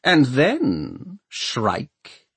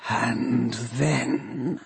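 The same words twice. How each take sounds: First: Raised, clear human voice; measured, assured official tone; lord mayor replying. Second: Soft, slow, eerie question; drawn-out hushed inhuman voice; horrible voice. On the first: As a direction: answer smoothly with authority. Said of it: "Crome replies". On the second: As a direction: ask it as an undead machine. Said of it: "asks the voice". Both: A narrator's reading.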